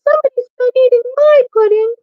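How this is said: The voice sounds wee and little. "in his wee little voice"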